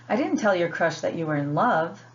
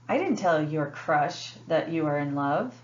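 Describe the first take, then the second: First: The word love carries the main stress. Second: The word crush carries the main stress. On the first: A milder word than love, like like, was used. "they're emphasizing the word love" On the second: It was told to someone other than the crush. "The word crush is emphasized"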